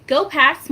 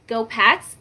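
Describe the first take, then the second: First: Excited cheer. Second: Said in the usual way. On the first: Real, not acted. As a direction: go Pats, higher and louder, falling on go. Cheering the Super Bowl win.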